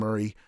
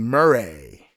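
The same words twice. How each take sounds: First: It is said in a plain, ordinary voice. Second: It is said in a fancy, affected voice.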